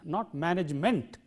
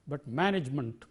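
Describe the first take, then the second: First: The final syllable has a full 'e' vowel. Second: The final syllable has a weak, reduced vowel. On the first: The speaker calls it wrong. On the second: The speaker calls it right.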